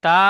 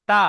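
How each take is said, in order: First: তা loud, with its vowel stretched; wrongly drawn-out তা. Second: তা with a brief vowel; short তা. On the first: Teacher echoes the pupil's mistake, drawn-out তা. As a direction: drag out the vowel of তা. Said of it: "টান হবে না". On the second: Teacher corrects the pupil's last syllable, short তা. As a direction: say তা short, without stretching it. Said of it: "হারাকাতে টান হয় না". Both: Shown as a demonstration.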